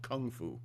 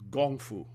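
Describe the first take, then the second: First: It uses the common American pronunciation. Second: It uses the Chinese pronunciation. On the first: "In the United States, we call it Kung Fu" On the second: "which is the Chinese pronunciation"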